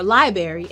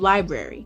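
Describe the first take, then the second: First: Some sounds in the word are switched around. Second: The word's sounds are in standard order. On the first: It is the form used in the dialect. "This is called metathesis" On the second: It is the traditional form. "instead of library"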